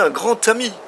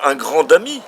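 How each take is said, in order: First: Grand links to ami with a T sound. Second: Grand links to ami with a D sound. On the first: The speaker calls it right. "le D, dès qu'il est lié, se prononce T" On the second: The speaker calls it wrong. "on ne dit pas euh, un grand ami"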